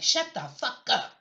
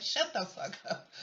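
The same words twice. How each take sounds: First: Lightly voiced telling-off, a touch raised; mild imitated put-down; mock telling-off. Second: Said in the usual way. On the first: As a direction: snap it like giving someone a slap. Imagined someone smacking Ted Cruz.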